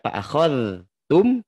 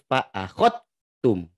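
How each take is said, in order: First: The dh sound is pronounced before the t. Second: The dh merges directly into the t. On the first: The speaker calls it wrong. "Jadi tidak" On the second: The speaker calls it right. "tapi langsung"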